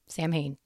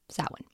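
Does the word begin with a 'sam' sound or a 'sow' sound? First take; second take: sam; sow. First: It is said as spelled, starting with 'sam'. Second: It starts with 'sow', rhyming with cow. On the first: The speaker calls it wrong. "it totally reads like Samhain" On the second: The speaker calls it right. "it's closer to Sow-en, like sow, like a cow"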